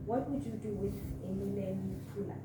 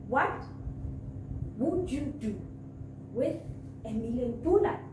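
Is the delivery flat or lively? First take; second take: flat; lively. First: It is said in a flat, even voice. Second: It is said with varied tone and energy. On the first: The speaker calls it wrong. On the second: The speaker calls it right.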